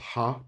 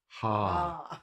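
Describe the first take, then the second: First: The vowel is said short. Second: The vowel is said long. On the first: The speaker calls it wrong. "So it's not ha" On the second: The speaker calls it right. "it's usually the same as we pronounce it, but long"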